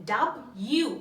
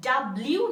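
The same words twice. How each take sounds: First: "ডাব্লিউ" as dab-yu, rising at the end; correct W pronunciation. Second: "ডাব্লিউ" as dab-liu, with the L; wrong W pronunciation. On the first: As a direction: model "ডাব্লিউ" in two careful parts, dab, yu. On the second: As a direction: demonstrate the mistaken L in "ডাব্লিউ". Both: Shown as a demonstration. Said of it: "ডাব্লিউ না".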